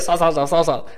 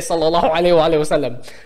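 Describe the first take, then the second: First: The phrase is rushed and mumbled into clipped syllables. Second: The phrase is said fully with every syllable articulated. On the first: It is said carelessly, without proper respect. The speaker calls it wrong. "We don't say sa sa sa sa sa" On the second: It is said with proper respect. The speaker calls it right. "We say"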